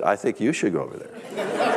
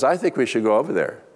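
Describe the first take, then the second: First: "you" picked out with a pitch jump; reluctant reply, contrastive weight on "you"; stress on "you". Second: Said in the usual way. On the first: Retold or imitated. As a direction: lean on "you" to hand the task back. Reluctant husband turns it back on her.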